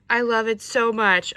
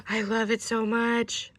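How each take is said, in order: First: Loud, emphatic delight; loud burst of love; emphatic gush. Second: Slow, drawn-out delight; slow adoring exclamation; heartfelt gush. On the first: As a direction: belt out your adoration. Repeats the gush more forcefully. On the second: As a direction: gush slowly, savouring it. First gush over the gift. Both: Real, not acted.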